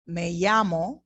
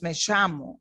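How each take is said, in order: First: Me llamo with the double L as y; me llamo as meh YA-mo; Latin American me llamo. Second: Me llamo with the double L as sh; me llamo as meh SHA-mo; Argentine me llamo. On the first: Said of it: "They pronounce it differently". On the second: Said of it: "They pronounce the double L stronger". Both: Shown as a demonstration.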